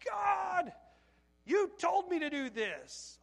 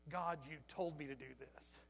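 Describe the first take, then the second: First: High, loud cry, slowing into accusation; yelling at God. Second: Low, soft, sobered echo; subdued replay. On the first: Worker at failing tree lot, yelling at the Lord. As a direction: shout it upward in frustration. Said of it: "I've never yelled at the Lord". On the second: Worker hearing his own words to God, subdued. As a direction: repeat it quietly, as if hearing yourself. Hushed, regretful repeat of outburst. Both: Retold or imitated.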